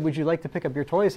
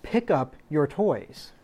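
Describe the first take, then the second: First: A gentle question that rises at the end; polite asking. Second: Slow, firm order with a falling end; firm command. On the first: Parent asking a child to pick up toys, polite rising question. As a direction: ask politely, as if the child may say no. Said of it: "if you said". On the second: Parent telling a child to pick up toys, slow firm command. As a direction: state it as an order, not a request. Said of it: "There's a difference between that and saying". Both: Shown as a demonstration.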